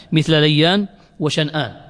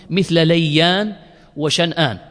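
Both takes have the same delivery.

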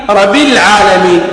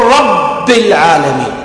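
First: Single B in رب; missing shadda. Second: Slow, doubled held B in رب; shadda on the ba. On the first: Teacher shows an invalid recitation, رب without shadda. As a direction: let the B of رب go undoubled. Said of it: "لم تصح، لا بد أن يقول". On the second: Teacher gives the required reading, رب with shadda. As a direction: press and hold the B of رب. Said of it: "لا بد أن يقول". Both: Shown as a demonstration.

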